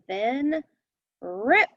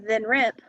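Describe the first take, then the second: First: There is a small pause between the words. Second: The two words run together without a pause. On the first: The speaker calls it right. "I said then rip. So you take a small pause where that comma is" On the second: The speaker calls it wrong. "I didn't just say then rip"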